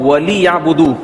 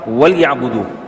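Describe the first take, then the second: First: The l is followed by a short i vowel. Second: The l has no vowel, closing the first syllable. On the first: The speaker calls it wrong. "वाली या बुदू नहीं" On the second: The speaker calls it right. "लाम साकिन हो जाएगी"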